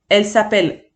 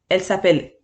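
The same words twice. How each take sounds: The two takes are said the same way.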